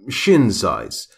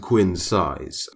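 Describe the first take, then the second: First: The name begins with an 'sh' sound. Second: The name begins with a 'kw' sound. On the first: The speaker calls it right. "Apparently, quins is actually shins" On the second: The speaker calls it wrong. "you don't say it how I've been saying it up until this point"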